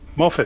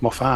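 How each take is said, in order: First: The second syllable is a short, reduced 'it'. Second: The second syllable has a fuller, extra vowel. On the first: The speaker calls it right. "Just Moffat, ... There's no extras. ... like M O F F I T" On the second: The speaker calls it wrong. "not Moffat"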